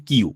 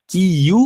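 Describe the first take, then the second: First: কিউ as one joined syllable; merged ই. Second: কি ইউ drawn out in two parts; higher-pitched কি ইউ, both parts full; separate ই. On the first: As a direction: drop the separate ই, just কিউ. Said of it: "আর এখানে হবে কিউ". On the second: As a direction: sound the ই of ইউ separately after কি. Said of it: "আলাদা করে ইর উচ্চারণ". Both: Shown as a demonstration.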